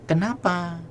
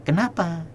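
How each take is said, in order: The two takes are said the same way.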